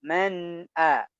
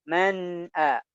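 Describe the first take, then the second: No difference in how they are said.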